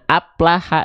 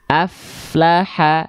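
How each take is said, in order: First: The middle consonant is a two-lip P sound. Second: The middle consonant is a lip-teeth F sound. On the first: The speaker calls it wrong. "Tapi kita baca aplaha" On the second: The speaker calls it right. "yang harusnya kita baca aflaha"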